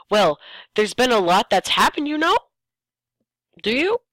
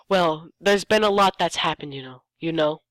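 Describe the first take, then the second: First: Rising tune on know, high on Do you; questioning tune. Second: Said in the usual way. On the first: Shown as a demonstration. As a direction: press the question hard at the end. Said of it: "This is a question I have". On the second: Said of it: "there's no two there".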